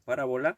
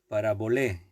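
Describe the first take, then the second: First: It is said with the changed Spanish stress. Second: It is said with the original Greek stress. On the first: "la acentuación la hemos cambiado un poco y decimos parábola" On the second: "la pronunciación en griego sería parabolé"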